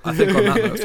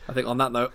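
First: Higher, louder to cut the chatter off; louder insistence. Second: Said in the usual way. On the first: Real, not acted. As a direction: raise the voice to shut the joke down. Repeats louder to cut them off.

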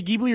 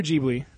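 First: Ghibli with hard G as in geese; hard G at the start of Ghibli. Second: Ghibli with soft G, like J; J sound at the start of Ghibli. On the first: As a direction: say Ghibli as GHIB-lee. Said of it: "How do you say it?". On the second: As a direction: say Ghibli as JIB-lee. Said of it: "Do you say Ghibli or". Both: Shown as a demonstration.

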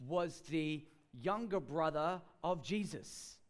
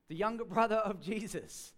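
First: Said in the usual way. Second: Amused repeat with a real laugh. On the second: Real, not acted. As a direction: laugh through the words, louder.

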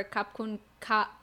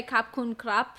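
First: "Kap kun ka" with a long open "ka"; female Thai form. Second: "Kap kun krap" ending on a short closed "krap"; male Thai form. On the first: Showing women's Thai thanks, "ka" drawn out. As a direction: draw out the final "ka", no p. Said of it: "they will say "ka" for women". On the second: Teaching a man Thai thanks, showing "Kap kun krap". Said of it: "So you say". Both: Shown as a demonstration.

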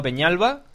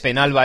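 First: "Peñalba" said with a palatal ny in place of n; wrong Ñ in Peñalba. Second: Said in the usual way. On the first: Shown as a demonstration. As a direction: say "Peñalba" with Spanish ñ, not plain n. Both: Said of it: "no Peñalba".

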